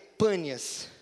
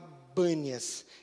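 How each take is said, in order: First: The name begins with a P sound. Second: The name begins with a B sound. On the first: This is the city's actual name. "o nome da cidade é Pânias" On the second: This is how an Arabic speaker says it. "no árabe não tem o P, então ele fala Bânias"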